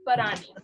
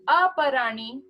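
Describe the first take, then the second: First: The word starts directly with a p sound. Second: The word starts with an a sound. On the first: The speaker calls it wrong. "It's not parani" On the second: The speaker calls it right. "there's actually a silent A there"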